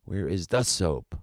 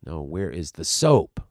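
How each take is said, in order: First: Said in the usual way. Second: Soap pushed louder in where is the soap; stress on soap. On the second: Shown as a demonstration. Actor fixing his stress, leans on soap. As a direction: hit the word soap, the rest plain. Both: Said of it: "I should have stressed that word".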